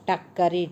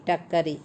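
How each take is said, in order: Both takes have the same delivery.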